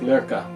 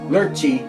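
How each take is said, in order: First: The name has a 'k' sound, ending in 'uh'. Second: The name has a 'ch' sound, ending in 'ee'. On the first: This is closer to how the name is really said. The speaker calls it right. "I think it's more like Lurka" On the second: This is the usual American way of saying it. The speaker calls it wrong. "in America we say Lurchi because that's how we are in America"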